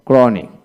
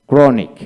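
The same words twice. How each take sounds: The two takes are said the same way.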